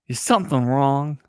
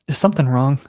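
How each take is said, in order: First: It is said with a Southern accent. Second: It is said without a Southern accent. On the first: The speaker calls it right. "Proprietor, Southern" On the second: The speaker calls it wrong. "You're not doing a southern accent"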